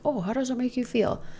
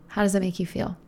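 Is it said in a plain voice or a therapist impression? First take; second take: therapist impression; plain voice. First: It is said in a mock therapist voice. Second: It is said in the speaker's plain voice.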